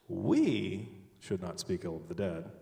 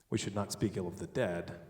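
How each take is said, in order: First: The word 'we' is stressed. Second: The word 'dead' is stressed. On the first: Someone else may say bad things about them. "but someone else can" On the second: Bad things may be said about the living. "The living, we should speak ill of"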